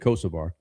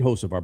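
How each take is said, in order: First: The name begins with a K sound. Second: The name begins with an H sound. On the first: This is the show's own nickname version. "but we say Kosovar" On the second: This is the name's real pronunciation. "I know it's Carson Hocevar"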